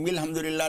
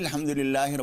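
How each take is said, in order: First: It starts with 'mil', linked to the word before. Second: It starts with 'al', separate from the word before. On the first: The speaker calls it wrong. "मिल हम्दुलिल्लाह नहीं" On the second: The speaker calls it right. "सही तरीका है"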